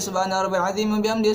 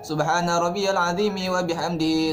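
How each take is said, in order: First: It is recited hurriedly, running straight on without pausing. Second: It is recited calmly, with a short pause after. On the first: The prayer lacks tranquility. The speaker calls it wrong. "kalau kita langsung ... tidak tenang sholatnya ya, terburu-buru" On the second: The prayer is performed with proper tranquility. The speaker calls it right. "berhenti sejenak ... itu namanya tumakninah"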